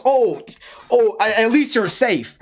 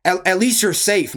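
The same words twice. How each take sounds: First: Slow, mocking whiny mimic of the friends; mocking mimicry. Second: Said in the usual way. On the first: Mocking the friends' late concern, slow whiny mimicry. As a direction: parrot their fake concern back.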